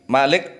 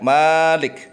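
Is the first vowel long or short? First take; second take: short; long. First: The first vowel is short. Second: The first vowel is long. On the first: "Malik pendek" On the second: "maliknya panjang"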